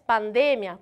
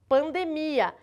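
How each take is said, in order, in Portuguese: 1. Ela é dita com a pronúncia do espanhol. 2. Ela é dita com a pronúncia do português brasileiro. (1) "e a já é pandemia, cuidado com essa entonação" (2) "A gente fala aqui no Brasil pandemia"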